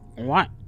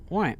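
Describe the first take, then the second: First: It is said loudly and forced. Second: It is said softly without forcing.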